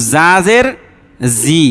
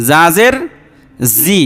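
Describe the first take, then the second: No difference in how they are said.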